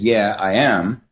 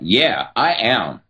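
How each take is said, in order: First: It sounds hesitant and uncommitted. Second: It sounds firm and committed.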